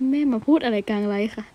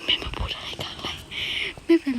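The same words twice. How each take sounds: First: Said in the usual way. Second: Unvoiced whisper, half to herself; hushed mortified whisper; embarrassed whisper. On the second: Real, not acted. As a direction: hiss it under your breath in embarrassment. Embarrassed aside about mother.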